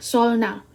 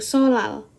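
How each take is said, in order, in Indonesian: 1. Bunyi n diucapkan sebelum l. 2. Bunyi n dihilangkan, sehingga menjadi l ganda. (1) "apa perjuangan bagi kita membacanya" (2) "jadi dia kayak langsung aja gitu"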